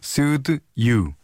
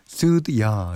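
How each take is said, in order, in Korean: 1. 마지막 단어는 완전한 'you'입니다. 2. 마지막 단어는 'ya'로 줄어듭니다.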